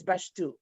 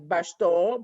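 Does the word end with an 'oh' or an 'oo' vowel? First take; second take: oo; oh. First: The final vowel is an 'oo' sound. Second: The final vowel is an 'oh' sound. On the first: This breaks the rule to give the curse word more energy. The speaker calls it right. "It's bashtu. ... like a U sound" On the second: This is how the normal spelling rule would read it. The speaker calls it wrong. "would have been like bashto, but it's not"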